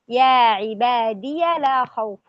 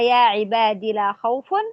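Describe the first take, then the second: First: The word ends in 'iya' before 'la'. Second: The word ends in a short 'i' before 'la'. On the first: "يقرأها بإثبات الياء مفتوحة وصلا" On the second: "يقرأها بحذف الياء وصلا ووقفا"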